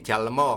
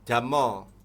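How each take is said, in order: First: The word is said with an L sound. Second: The word is said with no L sound. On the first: This is the form a Javanese tongue produces. "kalau uh, ilat Jawa mesti Jalmo" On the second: This is the form used in southern Sumatra. "di Lampung, di Bengkulu, di Sumatera Selatan, Palembang, Jambi, Riau, itu Jamo"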